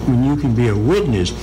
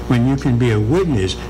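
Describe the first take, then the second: No difference in how they are said.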